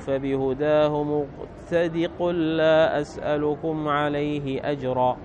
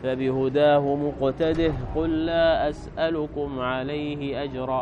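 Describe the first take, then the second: First: The word ends without a final h sound. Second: The word ends with a final h sound. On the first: "عند الوصل يحذفون الهاء" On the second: "وقرأ بقية السبعة بإثباتها في الوصل"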